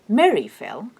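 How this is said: The emphasis falls on the first word. Someone fell, and who fell is the new information. "the fact that it was Mary who fell is new to me. English marks new information with a special intonation"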